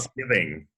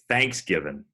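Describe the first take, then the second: First: The stress is on the second syllable. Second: The stress is on the first syllable. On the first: This is how it is said elsewhere. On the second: This is how it is said in the South.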